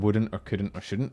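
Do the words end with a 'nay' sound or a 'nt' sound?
nt. The words end with a standard 'nt' sound. "which is how I speak now"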